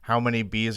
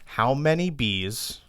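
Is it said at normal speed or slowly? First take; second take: normal; slowly. First: It is said at a normal, quick pace. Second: It is said slowly and deliberately.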